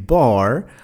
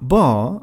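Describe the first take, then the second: First: It is said with an American English pronunciation. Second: It is said with a British English pronunciation. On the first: "bar en anglais américain" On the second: "bar en anglais britannique"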